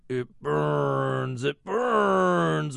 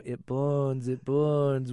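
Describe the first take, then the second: First: Rising demonic wail, louder on the second; possessed girl. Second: Mock possessed child. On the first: Retold or imitated. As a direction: channel the Exorcist girl. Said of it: "Doing my best Mercedes McCambridge impression". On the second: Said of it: "hearing your child go".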